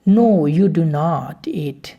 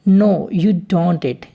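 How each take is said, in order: First: Do not is said as two full words. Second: Do not is contracted into one syllable.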